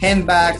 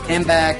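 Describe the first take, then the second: First: Each sound of the word is said clearly. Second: The middle sounds blend together into one.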